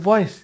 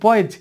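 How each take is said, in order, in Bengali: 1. শব্দটি s ধ্বনি দিয়ে শেষ হয়। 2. শব্দটি z ধ্বনি দিয়ে শেষ হয়। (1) "এসের উচ্চারণ স বলে অভ্যস্ত অনেকেই" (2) "এটা হবে বয়েজ"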